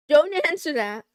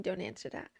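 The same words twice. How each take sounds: First: "Don't" shouted much louder, falling at the end. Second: Said in the usual way. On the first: Shown as a demonstration. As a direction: yell "Don't answer that" at chat.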